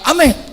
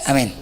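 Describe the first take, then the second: First: The amen sounds lively and enthusiastic. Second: The amen sounds flat and half-hearted. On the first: The host is rich and the food parcel will be big. "Sedep banget kalau ada orang kaya" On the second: The host is poor and lives in a rented house. "cuman aminnya beda"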